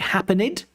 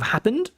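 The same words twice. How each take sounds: First: The ending is an extra 'id' syllable. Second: The ending adds no extra syllable. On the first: The speaker calls it wrong. "you say happened" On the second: The speaker calls it right. "instead of happened"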